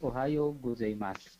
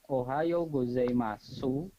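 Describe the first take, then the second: First: The final u of gozaimasu is dropped. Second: The final u of gozaimasu is fully voiced. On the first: The speaker calls it right. "tapi ... U-nya dihilangkan" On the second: The speaker calls it wrong. "Jadi bacanya bukan"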